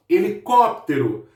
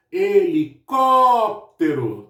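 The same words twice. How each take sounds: First: Said in the usual way. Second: "helicóptero" drawn out very slowly, CÓ held long; stress on CÓ. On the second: Shown as a demonstration. Teacher showing pupils the tonic syllable, long stressed CÓ in "helicóptero". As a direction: stretch and punch the "có" in "helicóptero". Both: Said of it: "o có acaba sendo a minha sílaba mais forte".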